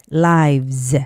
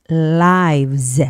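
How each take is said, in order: No difference in how they are said.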